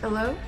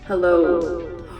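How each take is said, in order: First: The voice sounds dry, with no echo. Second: The voice sounds with an added echo.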